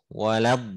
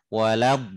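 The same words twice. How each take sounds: Both takes have the same delivery.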